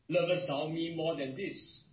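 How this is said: The question is asked in a disappointed tone. The asker is hurt by the listener's failure. "Or this could be a question also of disappointment"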